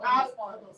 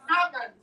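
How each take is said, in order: First: "almond" with the L sounded; wrong pronunciation. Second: "Almond" as AH-mond; correct pronunciation. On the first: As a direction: show "almond" as AL-mond. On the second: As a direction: silent L in "Almond". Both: Shown as a demonstration. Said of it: "Not almond".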